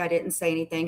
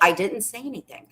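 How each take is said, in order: First: It is said in a calm, casual tone. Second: It is said in a more annoyed, angry tone.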